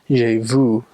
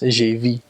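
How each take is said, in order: First: The vowel in vu is a rounded u. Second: The vowel in vu sounds like e. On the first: "it's not j'ai vu" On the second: "they pronounce the the the u like e"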